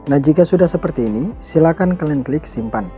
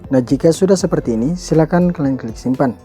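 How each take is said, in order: Both takes have the same delivery.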